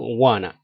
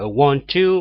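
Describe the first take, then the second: First: The words blend into the contraction 'wanna'. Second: The two words are said in full.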